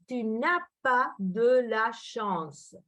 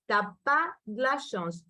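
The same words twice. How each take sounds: First: "Tu n'as pas de la chance" slowly, every word separate; full careful form. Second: "T'as pas de la chance" run together, "de" reduced to a d; casual contraction. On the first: Teacher shows learners the full form, "Tu n'as pas de la chance" slow and complete. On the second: Teacher models spoken French for learners, "T'as pas de la chance" contracted. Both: Shown as a demonstration. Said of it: "ça c'est tu n'as pas de la chance".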